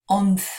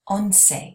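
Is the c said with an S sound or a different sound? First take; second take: different; S. First: The c is said without an S sound. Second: The c is said with an S sound. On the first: "here I say once" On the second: "like S sounds"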